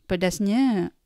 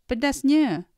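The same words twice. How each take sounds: First: The word is said softly and elegantly. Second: The word is exclaimed loudly and forcefully. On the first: "You could say it elegantly though" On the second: "You could not handle the spiciness and exclaim"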